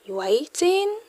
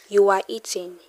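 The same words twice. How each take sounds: First: You are eating said with eating rising in pitch; question rise. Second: Said in the usual way. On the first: Shown as a demonstration. Teacher contrasts statement and question, rising. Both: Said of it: "We do the same thing in English".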